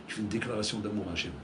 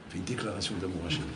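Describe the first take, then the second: No difference in how they are said.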